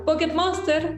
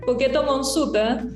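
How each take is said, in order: First: It is pronounced the English way, without added vowels. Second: It is pronounced Japanese-style, with vowels added after consonants.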